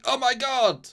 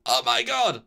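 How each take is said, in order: First: High, loud, hammed-up gasp of shock; mock shocked cry. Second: Louder but steady, matter-of-fact cry; quoted exclamation. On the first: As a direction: squeal it out like a stunned android. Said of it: "Quote, he says, "Oh my god!" Like that". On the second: Retold or imitated. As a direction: say it the way Data actually did. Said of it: "Like that".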